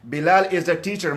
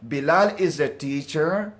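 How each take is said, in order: First: It is said as a plain statement. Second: It is said as a surprised question.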